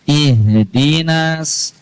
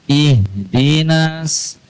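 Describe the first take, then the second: Both takes have the same delivery.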